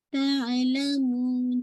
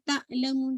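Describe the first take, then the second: First: तअलमून slow, the ain blended into the clear first vowel; smoothly merged ain. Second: तअलमून with the ain snapped in a jerk; jerky, wrong ain. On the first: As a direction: merge the ain of तअलमून without a jerk, long ending. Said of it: "आइन को मर्ज कीजिएगा". (तअलमून में आइन मिलाकर, धीरे खींचते हुए) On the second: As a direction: cut तअलमून abruptly after the first vowel. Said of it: "not तअलमून झटके से". (तअलमून झटके से, आइन तोड़कर) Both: Shown as a demonstration.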